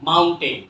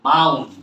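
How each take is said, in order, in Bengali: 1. শেষ অংশটি পূর্ণ 'ten' দিয়ে বলা হয়। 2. 'ten'-এর শেষ স্বরধ্বনিটি t-এর পরে বাদ যায়। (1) "সারা জীবন ভুল not মাউন্টেন" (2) "not টেন টেন is অফ"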